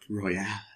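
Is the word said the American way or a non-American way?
non-American. It is said in a non-American, French-like way.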